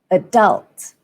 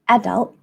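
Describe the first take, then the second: First: The stress is on the second syllable. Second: The stress is on the first syllable. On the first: "in American English, the stress falls on the second syllable" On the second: "in British English, you'd stress on the first syllable"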